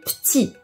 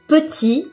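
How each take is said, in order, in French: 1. Le e de la première syllabe est supprimé. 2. Le e de la première syllabe est prononcé.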